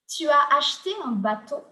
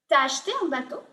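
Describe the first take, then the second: First: The pronoun is said in full as tu. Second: The pronoun and verb merge into t'as.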